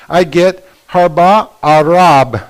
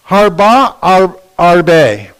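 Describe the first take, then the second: First: "harba arab" read slowly, the syllables joined differently; Hebrew read without the shiva. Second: "Harba ar-, arbe" read slowly, syllable by syllable, breaking before "arbe"; Hebrew read with the shiva. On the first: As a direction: slowly sound out "harba arab" as a new word. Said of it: "If I take away the shiva". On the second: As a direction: sound out "Harba arbe" slowly, parting the two words. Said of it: "This is the sentence without the shiva". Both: Shown as a demonstration.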